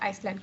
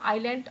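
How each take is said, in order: First: The word has an s sound in it. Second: The word has no s sound in it.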